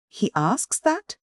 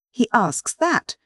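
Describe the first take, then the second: First: Much higher, slow, stammering disbelief; choking cry. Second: Very high, slow, stammering outcry; choking cry. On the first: Widow confronts the professor, choking and stammering. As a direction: choke out the words in grief. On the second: Widow cries out at the professor, choking disbelief. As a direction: let the grief break the question. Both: A narrator's reading. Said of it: "she cried, stammering and choking".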